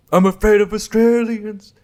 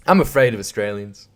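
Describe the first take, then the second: First: Exaggerated comic whine of fright; mock fearful voice. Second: Said in the usual way. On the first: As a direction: ham up the fear, pitched right up. Repeats line in put-on voice.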